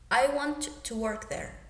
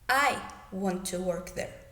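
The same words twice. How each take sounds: First: The stress falls on the verb. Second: The stress falls on the first word. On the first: It is a neutral statement about the action. "in the first example, we are stressing the verb" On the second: This person, and no one else, wants to work there. "I want to emphasize that I am the one that wants to work in that place"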